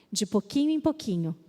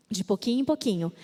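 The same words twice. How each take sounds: The two takes are said the same way.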